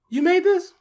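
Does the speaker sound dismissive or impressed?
impressed. It sounds amazed and impressed. The game seems surprisingly good. "we were getting that second one more often than the first one, thankfully"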